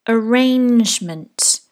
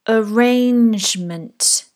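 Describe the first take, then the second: No difference in how they are said.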